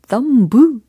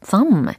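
First: The word ends with an audible b sound. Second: The word ends with an m sound. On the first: The speaker calls it wrong. "이렇게 하시면 안 되겠죠" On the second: The speaker calls it right. "M 사운드로 끝난다라고 생각해 주시면 되는 거예요"

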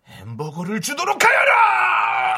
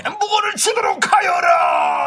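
First: The start is held down, the ending pushed up sharply. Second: The ending is pushed up only mildly.

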